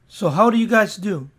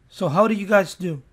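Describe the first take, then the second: Both takes have the same delivery.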